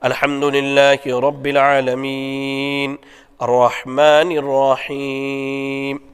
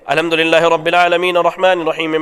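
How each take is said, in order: First: It is recited slowly with pauses between phrases. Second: It is recited very fast without pauses. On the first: The speaker calls it right. "आप इत्मीनान से ठहर ठहर के पढ़ते" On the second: The speaker calls it wrong. "बाज़ भाई बड़ी तेज रफ्तारी से पढ़ते हैं"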